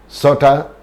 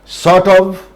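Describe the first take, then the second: First: The word of is reduced to a. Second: The word of is pronounced in full.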